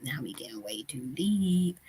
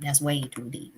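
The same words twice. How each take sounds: First: Playful whisper. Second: Said in the usual way. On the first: Pretend. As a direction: drop to a secret whisper. Joking that topic is too deep.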